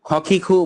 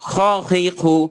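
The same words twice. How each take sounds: First: The kh sound is light, without pressure. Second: The kh sound is pressed and harsh. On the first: The speaker calls it wrong. "খখিখু বললে হবে না" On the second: The speaker calls it right. "একটু চাপ দিয়ে"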